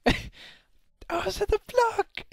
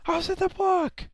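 First: Slow, high wail breaking into laughter; slow laughing cry of injustice; laughing drawn-out wail. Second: High loud protest; real outraged protest; indignant yell. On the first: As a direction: stretch the protest out while laughing. Repeats protest, drawn out laughing. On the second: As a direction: shout it as pure injustice. Protests death to viewers. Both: Real, not acted.

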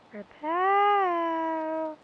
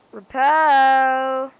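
First: High call. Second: Loud call. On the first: Calling for the item again. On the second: Calling for the item loudly. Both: Acted.

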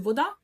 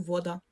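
First: Вода stressed on the last syllable, ДА; український наголос. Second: Вода stressed on the first syllable, ВО; Polish-style вода, lean on во and drop да; польський наголос. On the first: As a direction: Ukrainian вода, rising onto да. (вода з наголосом на останній склад, да) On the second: (вода з наголосом на перший склад, во) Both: Shown as a demonstration. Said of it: "відрізняється від української тільки наголосом".

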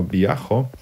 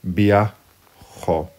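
First: Viajo stressed on the a, "BYA-kho"; no final accent. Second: Viajo stressed on the last syllable, "bya-KHO"; accent on final O. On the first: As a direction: leave the final o of viajo unstressed. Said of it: "without the accent". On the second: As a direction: split viajo and land firmly on the final o. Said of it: "you put the accent on". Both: Shown as a demonstration.

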